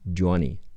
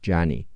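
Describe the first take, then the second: First: Johnny is said in a British pronunciation. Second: Johnny is said in an American pronunciation.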